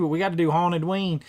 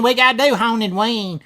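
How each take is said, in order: First: Said in the usual way. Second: Hammed-up Kentucky accent, louder and higher; mock the Kentucky host's accent, a bit louder; Kentucky guy impression. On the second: Telling chat about the Haunted Ween guy, mock Kentucky accent. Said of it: "He talks like this all the way through Haunted Ween, man, in Kentucky".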